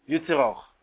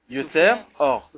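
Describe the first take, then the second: First: The two words are run together without a break. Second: The two words are separated by a short pause. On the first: It sounds like a word for one who causes suffering. The speaker calls it wrong. "Si on le lit rapidement, on entend Yoter Or" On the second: It means the one who forms light. The speaker calls it right. "il faut bien faire attention de séparer en deux les mots"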